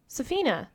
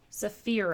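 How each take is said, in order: First: The name has an n sound before the end. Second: The name has an r sound before the end. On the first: The speaker calls it wrong. "What am I saying wrong?" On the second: The speaker calls it right. "R, not N"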